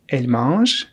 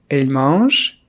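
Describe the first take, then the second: No difference in how they are said.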